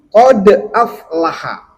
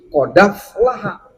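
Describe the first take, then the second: First: A glottal stop separates qad from aflaha. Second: The d runs straight into the following vowel. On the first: "Yang sukun adalah huruf dal. Yang berharokat adalah hamzah" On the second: "Warash membaca dengan memindahkan harokat hamzah aflaha"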